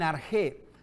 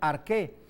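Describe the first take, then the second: First: The middle consonant is a soft rasping sound. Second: The middle consonant is a hard k sound.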